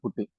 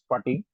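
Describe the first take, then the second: First: The word is said in its casual, everyday pronunciation. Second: The word is said in its formal, original pronunciation. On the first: This is how people commonly say it. "in our uh, day-to-day usage, it became Putty" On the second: This is the correct original name. "the actual pronunciation is Putty"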